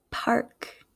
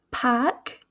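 First: "park" with a clear r before k; Midwestern pronunciation. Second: "park" with no r, fronted vowel; East Coast pronunciation. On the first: Teacher contrasting accents, "park" said Midwestern with clear r. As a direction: say "park" as "parrk". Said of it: "in my Midwestern accent". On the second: Teacher contrasting accents, "park" said East Coast as "pahk". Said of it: "in an East Coast accent". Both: Shown as a demonstration.

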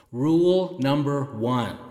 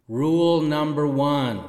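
First: Said in the usual way. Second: Big hall echo; reverb. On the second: Shown as a demonstration. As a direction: announce it with heavy reverb. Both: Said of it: "Sorry about the reverb".

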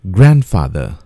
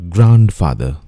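First: "Grandfather" said GRAND-fah-ther; "Grandfather" with a flat a in grand; careful "Grandfather", grand-fa-ther; correct pronunciation. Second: "grandfather" said GROUND-fah-ther; "grandfather" with an ow sound, ground; mispronounced "grandfather", ground-fa-ther; wrong pronunciation. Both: Shown as a demonstration.

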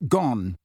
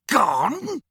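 First: Calm. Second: High, incredulous outraged yelp; enraged disbelief. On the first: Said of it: "said Harry calmly". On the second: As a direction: spit the word back in rage. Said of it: "his face contorting with rage". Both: A narrator's reading.

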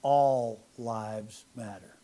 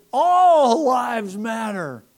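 First: Slow deliberate pronouncement; mock-solemn slow declaration; retold yell, slow and low. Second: Loud, high, very slow shout; drawn-out shouted slogan; yelled. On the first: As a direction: lay each word down slowly. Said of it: "I said". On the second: Retold or imitated. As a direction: hurl it out the window. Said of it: "And then I said".

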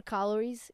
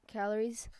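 First: CALORIES misspoken with an "ah" in the first syllable; slip of the tongue. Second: Said in the usual way. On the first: Real, not acted. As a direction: stumble on calories, saying it "KAH-luh-reez". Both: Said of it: "What's happening today?".

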